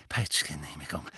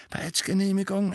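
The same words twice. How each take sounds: First: Tief und leise vor sich hin; fiebriges Selbstgespräch. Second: Hoher, gepresster Jubel; außer sich vor Freude. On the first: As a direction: keuchend zu sich selbst murmeln. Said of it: "fiebrig mit sich selbst redend". (fiebrig gemurmelt) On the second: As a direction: fiebrig entzückt wiederholen, Stimme weit oben. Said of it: "ganz aus dem Häuschen vor Freude". (freudig erregt) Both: A narrator's reading.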